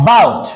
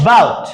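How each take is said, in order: Both takes have the same delivery.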